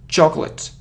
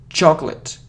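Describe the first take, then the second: Both takes have the same delivery.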